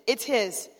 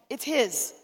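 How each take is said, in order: The two takes are said the same way.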